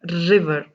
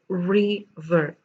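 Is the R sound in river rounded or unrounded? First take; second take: unrounded; rounded. First: The R is said without lip rounding. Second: The R is said with rounded lips. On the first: The speaker calls it wrong. "It's not river" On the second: The speaker calls it right. "round your lips and then say river"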